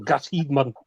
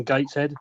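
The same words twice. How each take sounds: First: "Gateshead" said in broad Geordie; Geordie accent. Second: Said in the usual way. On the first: Shown as a demonstration. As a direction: say "Gateshead" as a Geordie local would. Redoes hometown in broad Geordie.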